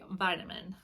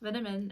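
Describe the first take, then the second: First: It is said in an American accent. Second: It is said in a British accent. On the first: "what we would say" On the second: "vitamin in British accent"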